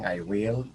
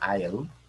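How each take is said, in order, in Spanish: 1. Will se dice como una palabra completa y separada. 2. Will se contrae y se une a I. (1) "ellos no dicen"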